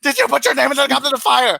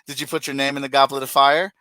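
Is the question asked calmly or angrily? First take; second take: angrily; calmly. First: It is asked in a furious, attacking way. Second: It is asked in a calm, gentle way.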